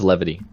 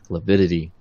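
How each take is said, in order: First: The word has three syllables, without an extra 'di'. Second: The word has four syllables, with an extra 'di'. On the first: The speaker calls it right. "It is levity" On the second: The speaker calls it wrong. "I always feel like I'm saying that wrong"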